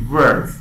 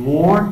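First: "words" said with an er vowel, like "verdz"; "words" with a firm, loud er; correct pronunciation. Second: "word" said with a rounded o, like "vord"; "word" with an open o vowel; wrong pronunciation. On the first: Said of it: "یعنی تلفظش". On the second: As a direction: say "word" as a spelling reading, with "or". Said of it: "word نیست". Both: Shown as a demonstration.

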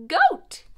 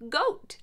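First: Goat said much higher and louder, rising; bouncy rising goat; playful high goat. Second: Said in the usual way. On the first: Shown as a demonstration. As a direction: squeal goat up high like a bleat. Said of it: "repeat of goat, much higher". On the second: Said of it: "second take is bleated".

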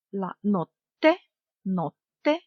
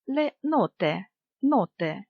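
First: Slow "нотте" with a long stop on the T; double T. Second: Said in the usual way. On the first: Shown as a demonstration. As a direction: hold the T in "нотте" before releasing it. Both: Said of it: "з однією або подвоєною літерою".

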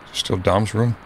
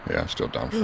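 First: Said in the usual way. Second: Whispered, higher and much softer; hushed whisper of the repeated line. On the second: Real, not acted. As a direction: breathe it out as an unvoiced whisper. Repeats the room line softly.

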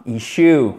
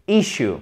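First: "issue" said the wrong way, not with the short stressed I; a mock learner mistake on "issue"; wrong pronunciation. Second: "Issue" with a short I and the stress on the first part; correct pronunciation. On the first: Teacher to learners, plays the wrong "issue" as a contrast. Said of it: "Et non pas issue". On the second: Teacher to learners, models the correct "Issue" stress. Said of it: "l'accent tonique est sur la première partie du mot qui est un I court". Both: Shown as a demonstration.

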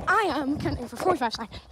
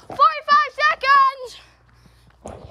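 First: Said in the usual way. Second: Called out slowly, high and loud; loud, drawn-out call. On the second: Real, not acted. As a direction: shout it slowly to the woods.

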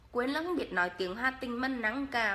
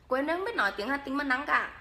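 First: Repeated Hà Tĩnh line, "không" stressed; Hà Tĩnh accent, second try; Hà Tĩnh dialect. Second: Light Hà Tĩnh accent; a touch of Hà Tĩnh accent; Hà Tĩnh dialect. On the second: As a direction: speak it in Hà Tĩnh style. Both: Shown as a demonstration. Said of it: "em nói tiếng Hà Tĩnh cho mà nghe".

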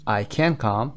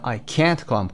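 First: Short unstressed can, weight on come; weak can. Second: Can't held long with a full vowel; stress on can't. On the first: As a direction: pass quickly over can to come. (can کوتاه و بدون تأکید) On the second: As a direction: draw out can't before come. (can't کشیده و با تأکید) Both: Shown as a demonstration. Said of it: "can بوده و یا can't".

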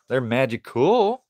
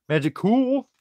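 First: Said in the usual way. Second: "Magical" sung out much higher and louder; squeaky high magical. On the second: Shown as a demonstration.

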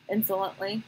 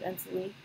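First: Said in the usual way. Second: "insolently" slurred short, middle syllable swallowed; slurred word. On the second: Real, not acted. Reader stumbling on a narration tag, "insolently" slurred short. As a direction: say "insolently" quickly and quietly as "ins-ly".

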